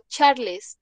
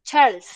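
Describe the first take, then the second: First: Charles read as Spanish CHAR-les; pronunciación española. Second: Charles said the English way; one syllable: Charles as "charlz"; pronunciación inglesa. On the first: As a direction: say Charles in two syllables, Spanish-style. Nombre leído a la española. (Charles a la española, "char-les") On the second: Mismo nombre en inglés. (Charles en inglés, una sola sílaba) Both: Shown as a demonstration.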